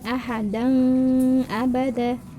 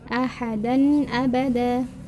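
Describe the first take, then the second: First: The n sound is not pronounced clearly. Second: The n sound is pronounced clearly. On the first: The speaker calls it wrong. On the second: The speaker calls it right. "Maka dibacanya secara jelas"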